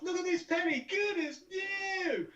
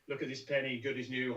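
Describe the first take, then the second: First: It is said very loudly and wildly. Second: It is said calmly like an announcer.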